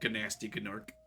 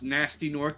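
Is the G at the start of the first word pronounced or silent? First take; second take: pronounced; silent. First: The first word starts with a hard G sound. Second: The first word starts with a plain N sound. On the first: This is the speaker's preferred playful pronunciation. "but I like saying Gnasty Gnorc" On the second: This is the technically correct pronunciation. "technically pronounced Nasty Gnorc because you don't pronounce the G"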